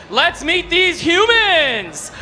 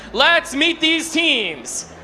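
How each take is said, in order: First: Humans drawn out slowly and falling; stress on humans. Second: Said in the usual way. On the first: Real, not acted. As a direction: lean into the word humans. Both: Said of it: "never mind".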